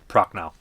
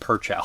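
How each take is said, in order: First: The name begins with a 'proch' sound. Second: The name begins with a 'per' sound. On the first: The speaker calls it right. "But I get it" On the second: The speaker calls it wrong. "Definitely not Perchow"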